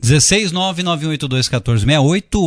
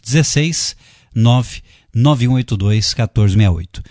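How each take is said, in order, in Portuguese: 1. O número é lido num ritmo rápido. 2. O número é lido num ritmo lento. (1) "O pessoal reclama que às vezes fala muito rápido" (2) "devagarinho para você anotar aí"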